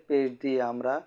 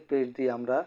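The two takes are said the same way.

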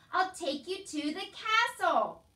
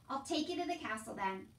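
First: High, loud, stretched-out shouting; slow shout. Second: Said in the usual way. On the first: A narrator's reading. Soldier making deaf Meg understand, shouting slowly. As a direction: shout each word to get through. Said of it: "shouted the soldier".

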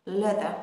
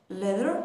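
First: British accent. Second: Said in the usual way. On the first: Shown as a demonstration. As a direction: say "leather" as British "leh-thuh". (تلفظ بریتیش leather بدون ر آخر)

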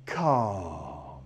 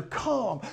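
First: Low, drawn-out calm; low soothing calm. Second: Higher, bright calm inside the praise; high praising calm. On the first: Trainer settling his dog with a low, drawn-out calm. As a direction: bring the dog back down with calm. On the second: Trainer praising the dog, saying calm higher and brighter. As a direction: keep the praise going on calm. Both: Shown as a demonstration. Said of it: "I just get big love".

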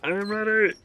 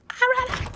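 First: High, loud "I'm ready"; loud nervous cry. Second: Extremely high, loud squeak; panicked squeal. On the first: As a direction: call it out high and tense. Bracing for a scare, first take. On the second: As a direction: squeal it at the very top. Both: Real, not acted.

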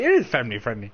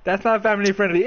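First: "is" pressed lower and firm; stress on is. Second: "not" hit high and hard; stress on not. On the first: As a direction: lean on the word "is". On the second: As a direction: push the word "not". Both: Real, not acted.

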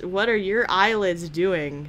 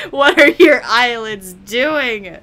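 First: Said in the usual way. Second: Loud, drawn-out disbelief; mock alarm. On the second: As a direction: cry it out slowly, appalled in jest.

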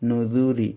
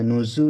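First: নুজুরি as "nudhuri", soft "th" of English "this"; soft DHAL. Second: নুজু said slowly with a buzzing "z", as "nuzzu"; hard buzzed Z. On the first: Teacher shows students the correct sound, soft "nudhuri" for নুজুরি. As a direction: keep the middle of নুজুরি soft, without buzzing. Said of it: "দাল নরম হবে". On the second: Teacher shows students the mistake, buzzed "nuzu" for নুজু. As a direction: turn the middle of নুজু into a hissy z. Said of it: "যেন না হয়". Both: Shown as a demonstration.

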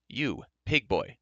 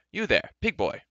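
First: Slow, deliberate repeat of the call; repeated address. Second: High, loud imperious hail; haughty call. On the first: Haughty rider addressing the farm boy once more, slow and deliberate. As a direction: spell it out slowly to an inferior. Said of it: "he repeated". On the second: Haughty rider hailing a farm boy, imperious call. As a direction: call out sharply to a servant, pitched up. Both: Acted.

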